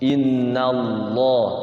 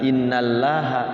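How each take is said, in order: First: The l in Allah is said thick. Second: The l in Allah is said thin. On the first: The speaker calls it right. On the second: The speaker calls it wrong. "Kalau innallaha tipis masuknya, tarqiq"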